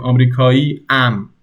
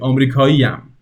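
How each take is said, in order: First: The ending is said apart from the word. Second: The ending is joined smoothly onto the word. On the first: The speaker calls it wrong. "if you wanted to say it like they're separate" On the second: The speaker calls it right. "You have to connect it"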